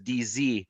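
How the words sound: The last letter is pronounced zee. This is the North American way of naming the letter. "those of you who are south of the border"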